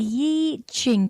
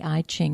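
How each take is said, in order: First: The first syllable sounds like "yee". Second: The first syllable sounds like "eye". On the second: It is a slurred, anglicized pronunciation. "how we've sort of slurred the E"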